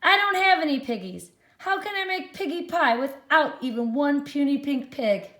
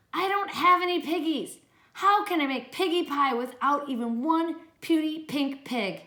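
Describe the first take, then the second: First: High, loud, fast fretful witch. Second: High fretful witch complaint. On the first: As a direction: complain loudly like a frantic witch. Witch Gritch complains, reread. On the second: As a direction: whine like a hungry witch. Witch Gritch complains in story. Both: Acted.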